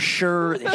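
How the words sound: The syllable ends with an r sound. The speaker calls it wrong. "or Sure"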